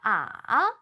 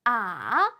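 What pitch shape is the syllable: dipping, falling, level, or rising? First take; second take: dipping; dipping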